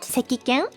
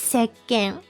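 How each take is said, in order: First: The 'ki' syllable is pronounced in full. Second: The 'ki' becomes a doubled k sound. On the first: The speaker calls it wrong. "not sekiken" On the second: The speaker calls it right. "it's sekken"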